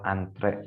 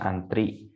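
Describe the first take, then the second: First: The word ends with an 'e' vowel. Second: The word ends with an 'i' vowel. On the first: The speaker calls it right. "yang tepat adalah antre menggunakan e" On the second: The speaker calls it wrong. "sering salah pengucapannya"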